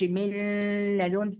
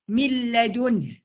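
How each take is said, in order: First: The n is held with a nasal hum. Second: The n merges straight into the l. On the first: The speaker calls it wrong. "مفيش بقى الغنه، بقى ما اقولش من لدنه، مفيش كده" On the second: The speaker calls it right. "بدخل على اللام من غير ما اتك"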